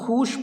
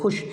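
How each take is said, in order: First: The vowel is drawn out long before sh. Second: The vowel is short and joins straight to sh. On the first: The speaker calls it wrong. "वरना खूश पढ़ते इसको" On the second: The speaker calls it right. "उसको direct शीन से मिला दे रहे हैं"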